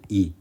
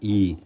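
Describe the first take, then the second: First: The ee vowel is kept short. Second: The ee vowel is held slightly longer. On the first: "소리를 길게 내지 않습니다" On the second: "얘는 약간 긴데"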